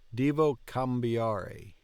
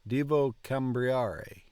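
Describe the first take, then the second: First: No R sound follows the B. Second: An extra R sound follows the B. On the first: The speaker calls it right. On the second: The speaker calls it wrong.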